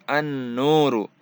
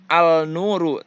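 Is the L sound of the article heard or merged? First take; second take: merged; heard. First: The L merges into a doubled N sound. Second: The L sound is clearly pronounced. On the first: The speaker calls it right. "alif lamnya tidak dibaca" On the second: The speaker calls it wrong. "bukan al-nuru"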